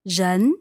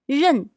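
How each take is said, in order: First: The syllable is said with the second tone. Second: The syllable is said with the fourth tone. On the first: It means person. "Second tone" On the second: It means to know or recognize. "认 is fourth tone"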